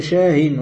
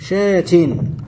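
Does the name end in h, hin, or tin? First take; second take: hin; tin. First: The word ends in an h followed by -in. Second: The word ends in a t followed by -in. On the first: The speaker calls it right. "وإذا وصلته قلت شاهن" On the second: The speaker calls it wrong. "ولا تقول شاتن"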